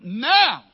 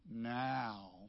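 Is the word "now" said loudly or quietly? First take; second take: loudly; quietly. First: The word is said loudly, with strong emphasis. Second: The word is said softly, without emphasis. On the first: The speaker calls it right. "That's the emphasis of the Greek text. It is not quiet" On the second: The speaker calls it wrong. "Not now. ... That sounds like meow"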